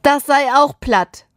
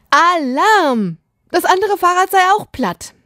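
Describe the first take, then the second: First: High, whiny near-wail; plaintive, raised child's complaint; nearly wailing. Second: High, sustained alarm call; alarm-siren pitch, held high; alarmed cry. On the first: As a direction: report it as if about to cry. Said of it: "heult er fast". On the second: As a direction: sound the alarm like a panicked child. Child reports flat bike in alarm. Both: A narrator's reading.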